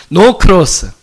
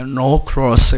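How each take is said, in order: First: Said in the usual way. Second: "No cross" with a rolled, drawn-out English r, lower and relaxed; rolled English pronunciation. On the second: Shown as a demonstration. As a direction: roll the r in "cross" like a native English speaker. ("No cross"를 낮게, 혀를 굴리는 영어 발음으로) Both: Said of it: "영어를 하시면 조금 이렇게 굴리셔도 돼요".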